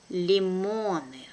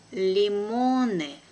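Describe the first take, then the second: First: Brisk, natural native speed; quick native pace. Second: Slow and careful, drawn out for learners; teacher's careful slow reading. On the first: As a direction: say it fast like a native. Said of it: "second time will be quickly, like a native". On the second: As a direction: spell it out slowly for the class. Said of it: "one first time will be slow". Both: Shown as a demonstration.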